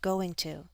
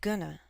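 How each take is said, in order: First: Both words are said fully and separately. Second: The words are blended into one short reduced form.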